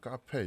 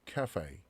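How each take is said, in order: First: It is said with a Korean pronunciation. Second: It is said with an English pronunciation. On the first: "우리 카페 이렇게 읽지만" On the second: "영어 발음은 자 cafe"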